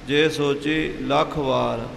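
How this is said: A short break comes between lakh and vaar. The speaker calls it right. "लख ते थोड़ा रोक के वार बोलना"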